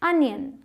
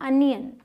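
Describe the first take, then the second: No difference in how they are said.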